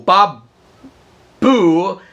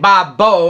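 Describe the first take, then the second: First: The last syllable ends in an oo vowel. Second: The last syllable ends in an oh vowel. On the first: The speaker calls it right. "is the proper pronunciation" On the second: The speaker calls it wrong. "but I was saying Bob Bo. I don't know why"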